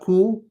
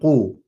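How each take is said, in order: First: It begins with a plain front 'k' sound. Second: It begins with a deep 'q' from the throat. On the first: The speaker calls it wrong. "not ku" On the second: The speaker calls it right. "This is a qaf"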